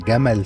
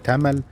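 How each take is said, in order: First: The word begins with a J sound. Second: The word begins with a T sound. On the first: The speaker calls it right. "بدل جمل" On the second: The speaker calls it wrong. "بيقول الجيم دال او الجيم تاء"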